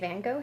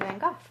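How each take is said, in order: First: The name is said the American way. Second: The name is said the British way.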